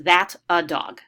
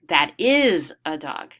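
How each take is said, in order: First: Said in the usual way. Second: Slow correction leaning on "is" in "That is a dog"; correcting parent. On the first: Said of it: "the child points at the dog and says". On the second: Retold or imitated. Parent correcting a child, slow, pressing "is" in "That is a dog". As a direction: stress on "is" in "That is a dog", said slowly. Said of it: "would respond and say something like".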